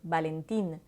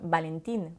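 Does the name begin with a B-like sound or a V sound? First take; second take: B-like; B-like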